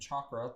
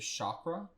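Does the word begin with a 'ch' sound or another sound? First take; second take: ch sound; other sound. First: The word begins with a 'ch' sound. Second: The word begins without a 'ch' sound. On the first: "I'm saying chakra because it has a ch at the beginning" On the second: "There's also people that say chakra"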